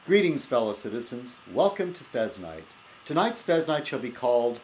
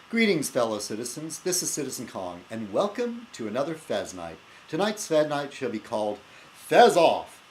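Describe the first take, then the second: First: Hammed-up host greeting; show host intro. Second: Grand host greeting, title punched loud; show host intro. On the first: Host welcoming viewers to his show, mock grand. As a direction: announce it like a grand show opener. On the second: Acted. Host restarting his show opener, title belted out. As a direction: open the show with a flourish, slam the title.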